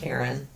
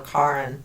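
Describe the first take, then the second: First: The name is said the American way. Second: The name is said the European way. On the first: This is how the name is said in the US. The speaker calls it wrong. "not Karen" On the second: This is how the name is said in South America and Europe. The speaker calls it right. "in South America it's more Karin"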